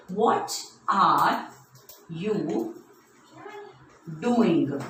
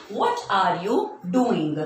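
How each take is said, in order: First: Very slow question, broken by long pauses; word-by-word dictation. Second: Said in the usual way. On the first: Shown as a demonstration. Teacher writing a question for children, slow word-by-word dictation.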